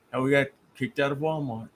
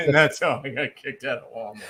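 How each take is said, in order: First: Understated, deadpan mimicry; dry punchline delivery. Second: Punchline repeated through laughter; laughing mimicry. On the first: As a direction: drop the punchline dryly after a pause. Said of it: "'cause you just look, and that's". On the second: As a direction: echo the joke while cracking up. Repeats punchline while still laughing.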